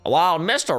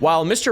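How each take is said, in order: First: It is spoken in a southern accent. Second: It is spoken in a plain accent.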